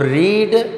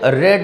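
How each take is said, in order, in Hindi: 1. स्वर लंबा है, 'reed' जैसा। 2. स्वर छोटा है, 'red' जैसा।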